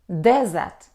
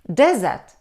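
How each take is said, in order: First: The stress is on the first syllable. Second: The same.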